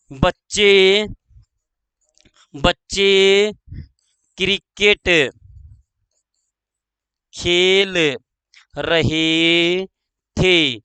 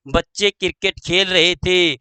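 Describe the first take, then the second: First: Word by word, long gaps; slow dictation. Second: Said in the usual way. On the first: Shown as a demonstration. Teacher dictating the cricket example, slow dictation. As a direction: give each word time to be written.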